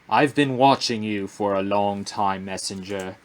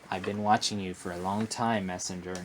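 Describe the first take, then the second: First: It is read in an epic British accent. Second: It is read in a plain, ordinary voice. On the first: The speaker calls it right. "Pull out my British accent" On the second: The speaker calls it wrong. "this guy needs a more epic voice"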